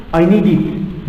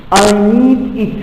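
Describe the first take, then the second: First: "need it" linked, D starting "it"; linked pronunciation. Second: Said in the usual way. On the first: Shown as a demonstration. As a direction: run "need it" together as "nee-dit". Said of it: "Notice the D is with the it". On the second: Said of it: "How do we read it?".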